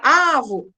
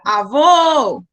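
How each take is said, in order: First: The stress is on the first syllable. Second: The stress is on the last syllable. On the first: The speaker calls it wrong. "Você não falaria avo" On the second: The speaker calls it right. "você estenderia a última sílaba"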